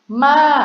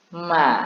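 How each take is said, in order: First: The pitch goes from level up to fairly high. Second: The pitch stays level at a low height. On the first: "siang tri" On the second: "siang ek"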